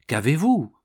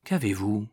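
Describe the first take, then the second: First: Baffled, more forceful demand; insistent question. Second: Low-key anxious question; subdued, uneasy inquiry; worried question. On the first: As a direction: press for an answer. Baffled man presses her again. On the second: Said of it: "saisi d'inquiétude, en demandant". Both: A narrator's reading.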